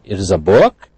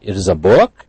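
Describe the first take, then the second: First: It is said with a questioning tune. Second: The same.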